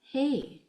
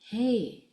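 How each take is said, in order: The two takes are said the same way.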